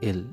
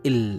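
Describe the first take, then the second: First: The l is said lightly and easily. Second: The l is said with force. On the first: The speaker calls it wrong. "খুব সহজভাবে যে এল" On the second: The speaker calls it right. "এভাবে আমরা জোর দেবো এল"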